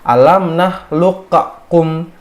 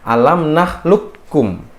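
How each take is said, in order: First: The q sound is bounced before the k. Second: The q sound is merged into the k. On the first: The speaker calls it wrong. "qaf yang mati dia harus dibaca kol qalqalah" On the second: The speaker calls it right. "harus dileburkan ke huruf setelahnya"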